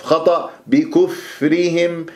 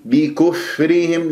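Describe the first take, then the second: First: بكفرهم slow with the kaf vowel dragged onto fa; wrong rounding. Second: بكفرهم slow, ba as bi, fa unrounded; clear kasra. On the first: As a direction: show the mistaken بكفرهم. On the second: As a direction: say بكفرهم slowly with a clean bi. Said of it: "كسرة الباء بي". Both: Shown as a demonstration.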